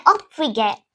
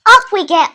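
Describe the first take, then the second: First: Said in the usual way. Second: Cheery call. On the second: Retold or imitated. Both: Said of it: "I was like".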